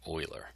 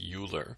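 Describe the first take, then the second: First: The name gets its Swiss pronunciation. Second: The name gets an anglicized reading. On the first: The speaker calls it right. "the pronunciation is actually Euler" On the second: The speaker calls it wrong. "looks like it's pronounced Euler"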